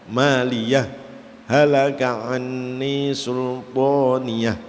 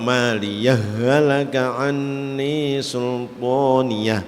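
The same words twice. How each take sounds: First: A brief pause separates maliyah from halaka. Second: Maliyah merges into halaka with a doubled h. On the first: "Caranya idhar dibaca saktah ya" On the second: "atau idgham"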